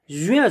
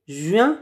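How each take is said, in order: First: The J is followed by a rounded 'ui' glide. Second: The same.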